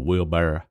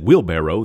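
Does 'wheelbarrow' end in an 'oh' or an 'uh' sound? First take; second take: uh; oh. First: Slow Southern drawl, the word ends in 'uh'. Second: Standard pronunciation, the word ends in 'oh'. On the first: "Or it's so slow like this" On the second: "instead of barrow"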